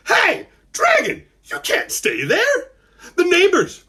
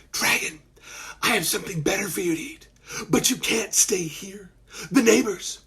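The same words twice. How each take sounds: First: Put-on very high, slow boyish call-out; loud voice. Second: Put-on hushed, secretive boyish voice; quiet voice. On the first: Malcolm warning the dragon from the porch, loud voice. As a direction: call out so the dragon hears you. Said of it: "he used his loud voice". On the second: Malcolm hiding from his mom, quiet voice. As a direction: keep it down so nobody upstairs hears. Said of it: "he used his quiet voice". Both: A narrator's reading.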